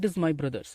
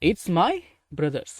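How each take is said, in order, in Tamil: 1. "It is" என்பது இரண்டு முழு சொற்களாகச் சொல்லப்படுகிறது. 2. "It is" என்பது "it's" என்று சுருக்கமாகச் சொல்லப்படுகிறது.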